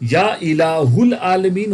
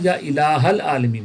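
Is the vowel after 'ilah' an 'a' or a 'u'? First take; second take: u; a. First: The vowel after 'ilah' is 'u'. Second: The vowel after 'ilah' is 'a'. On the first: The speaker calls it wrong. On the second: The speaker calls it right.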